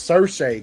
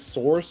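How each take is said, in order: First: The name sounds like 'Sersha', two syllables. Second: The name sounds like the word 'source'. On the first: The speaker calls it right. "she like pronounced her name" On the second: The speaker calls it wrong. "I always used to try to pronounce it as source"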